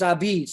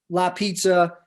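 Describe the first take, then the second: First: It starts with no L sound. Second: It starts with an L sound. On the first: This is how the immigrants said the word. "they dropped the L, they kept the A" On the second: This is the standard form of the word. "the technical word is la pizza"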